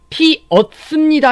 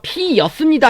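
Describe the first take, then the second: First: No glide is inserted before the second vowel. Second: A y-glide is inserted before the second vowel. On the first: "피었습니다 해도 됩니다" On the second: "피였습니다 해도 되고"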